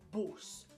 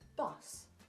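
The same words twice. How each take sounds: First: It is said in a Birmingham/Black Country accent. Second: It is said in a general British accent.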